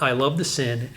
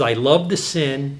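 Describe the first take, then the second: First: Said in the usual way. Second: Slow, each word set apart, "the" leaned on; slow quoted line. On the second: Retold or imitated. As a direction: read it out slowly as a quote, landing on "the". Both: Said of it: "this is a quote".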